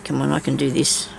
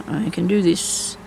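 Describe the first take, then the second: First: Said in the usual way. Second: Slower, each word set down firmly; slow self-encouragement. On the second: Real, not acted. Crafting alone, urging herself on, slow and firm. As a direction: talk yourself through it, slowly.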